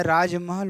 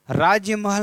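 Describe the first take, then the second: First: Said in the usual way. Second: राजमहल with an extra y after the j, "raajya-mahal"; raised, firm राजमहल with an added "ya"; wrong form. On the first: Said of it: "राजमहल होता है". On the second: Shown as a demonstration. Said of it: "राजमहल नहीं होता है".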